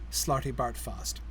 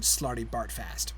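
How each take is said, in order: First: It is said with an English accent. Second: It is said with an American accent. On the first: The speaker calls it right. "all three of the A's have the same sound, which is how it sounds um, when somebody English reads it" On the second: The speaker calls it wrong. "to an American, it would sound like Slarty. ... We'd have to say fast at the end"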